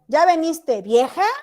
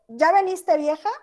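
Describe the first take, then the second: First: It is said calling out to the person. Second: It is said as a genuine question. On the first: The speaker calls the person old woman. "le está llamando vieja" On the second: The speaker is asking something. "Está preguntando"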